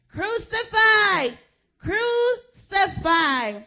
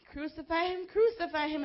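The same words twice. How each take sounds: First: Very high, loud, slow drawn-out cry; mob shout. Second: Lightly raised retold shout; a hint of the mob's cry; mild mock shout. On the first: Acted. Preacher voicing the chief priests, slow furious shout. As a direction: bellow it like an angry mob. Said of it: "they shouted". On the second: Preacher recalling the crowd's shout, mild mock shout. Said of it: "is what they were shouting".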